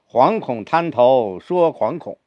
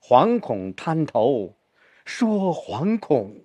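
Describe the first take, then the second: First: Both 惶恐 get equal stress. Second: The second 惶恐 is stressed more heavily.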